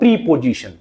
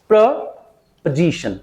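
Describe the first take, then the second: First: The second syllable is not reduced to weak. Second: The second syllable is weak, the third stressed. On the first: The speaker calls it wrong. "It is the incorrect pronunciation" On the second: The speaker calls it right. "प्र पर second stress है, पै बिल्कुल वीक है, जे पर primary stress है"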